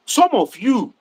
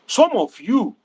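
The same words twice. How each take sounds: The two takes are said the same way.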